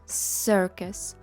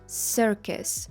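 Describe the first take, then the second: The two takes are said the same way.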